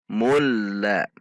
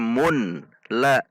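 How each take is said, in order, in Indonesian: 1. Bunyi n menyatu sepenuhnya menjadi l ganda. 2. Bunyi n dibaca terpisah sebelum l. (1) "namun mulla" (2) "bukan dibaca mun la"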